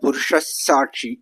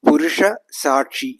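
First: Purusha ends in an s sound. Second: Purusha ends in an h sound.

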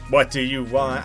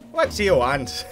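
First: It is said in a grumpy character voice. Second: It is said in a vague, slightly Irish accent.

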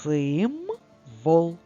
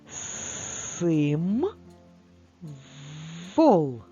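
First: It is read faster as one whole word. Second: It is read slowly, syllable by syllable.

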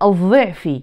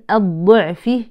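First: The emphatic consonant sounds like an interdental dh. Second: The emphatic consonant sounds like a stop d. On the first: The speaker calls it wrong. "ليست الضعف" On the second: The speaker calls it right. "إذا نقول"

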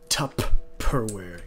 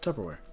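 First: The middle consonant is pronounced strongly and clearly. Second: The middle consonant is pronounced softly and weakly. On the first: The speaker calls it wrong. "You don't say Tupperware" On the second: The speaker calls it right. "it's very soft"

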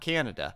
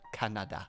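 First: It is said without the Dutch accent, 'eh' vowel. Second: It is said with a Dutch accent, 'ah' vowel. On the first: The speaker calls it wrong. "Not Canada. It's not eh" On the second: The speaker calls it right. "Gotta add that a specific little Dutch accent there. It's ah"

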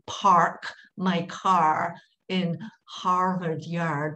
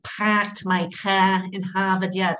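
First: The R sounds in 'park', 'car' and 'Harvard Yard' are pronounced. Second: The R sounds in 'park', 'car' and 'Harvard Yard' are dropped. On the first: "They don't say park my car in Harvard Yard" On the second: "They have what you call the non-roticized R. They don't use the R"

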